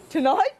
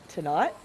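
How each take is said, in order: First: Louder, higher, amused disbelief; incredulous. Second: Said in the usual way. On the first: Real, not acted. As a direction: catch your own silly mistake. Correcting her own slip.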